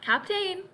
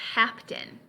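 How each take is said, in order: First: The last syllable is said fully, as spelled. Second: The last syllable is reduced to a weak vowel. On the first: The speaker calls it wrong. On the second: The speaker calls it right.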